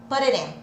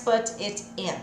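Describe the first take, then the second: First: Both t sounds are quick flaps like r. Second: Both t sounds are crisp, clearly released t's. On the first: The speaker calls it right. "Eu vou ter dois sons de ir" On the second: The speaker calls it wrong. "não é mais put it in"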